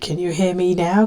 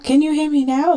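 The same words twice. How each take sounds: First: It is said fairly quietly. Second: It is said loudest of all.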